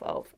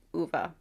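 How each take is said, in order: First: Said in the usual way. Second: "Uva" said the Swedish way, oo-vah; Swedish pronunciation. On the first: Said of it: "Uva, my bad, Swedish". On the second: Shown as a demonstration. Reviewer corrects herself, says "Uva" the Swedish way, oo-vah.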